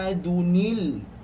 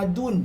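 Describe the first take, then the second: First: The word ends with an added linking 'nil' sound. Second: The word ends with a plain 'un' sound. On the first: The speaker calls it right. "dia baca adunil mursalin" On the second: The speaker calls it wrong. "Jangan baca adun"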